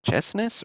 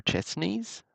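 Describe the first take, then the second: First: "Chesnes" with a short, unstressed ending like -ness; alternative name pronunciation. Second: "Chesneys" with a long ee in the ending; alternative name pronunciation. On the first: Host puzzling over a card name, "Chesnes" said CHESS-ness. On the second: Host offering a second guess at a card name, "Chesneys" said CHESS-neez. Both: Shown as a demonstration. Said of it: "that's an interesting last name".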